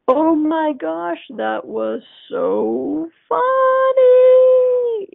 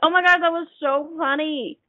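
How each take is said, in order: First: It is said very slowly, like a sloth. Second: It is said at a normal quick pace.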